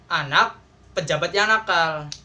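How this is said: A pause comes after the first word. The official is the naughty one. "yang pertama itu anak plus pejabat yang nakal"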